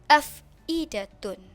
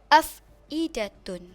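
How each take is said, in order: The two takes are said the same way.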